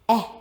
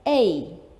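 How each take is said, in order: First: The letter is said as its sound. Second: The letter is said as its name. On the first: The speaker calls it right. "We sound it out and we say eh" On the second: The speaker calls it wrong. "we don't say it like that"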